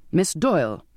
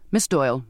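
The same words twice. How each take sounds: First: Objecting. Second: Snapped. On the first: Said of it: "Mister Grummage objected". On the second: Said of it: "Mister Grummage snapped". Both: A narrator's reading.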